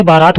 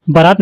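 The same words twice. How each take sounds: First: बारात said as "baaraat"; long-a बारात. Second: बारात said as "baraat"; short-a बारात. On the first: Teacher correcting, long first vowel in बारात. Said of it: "यहाँ पे बारात होता है". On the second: Teacher showing the error, short a in बारात. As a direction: shorten the first vowel of बारात. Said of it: "नहीं होता". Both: Shown as a demonstration.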